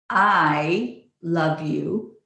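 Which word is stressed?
I. The stress is on "I".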